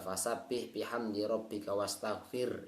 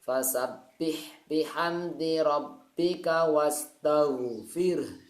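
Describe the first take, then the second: First: The last word ends on an r sound. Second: The last word ends on an h sound. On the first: The speaker calls it wrong. "itu salah, bukan ro" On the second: The speaker calls it right. "yang terakhir itu adalah huruf ha"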